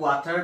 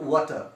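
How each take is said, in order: First: An r sound is heard at the end. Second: No r sound is heard at the end. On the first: The speaker calls it wrong. "এইটো ৱাটাৰ নহয় আচলতে" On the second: The speaker calls it right. "আৰ আমি silent হৈ যাব"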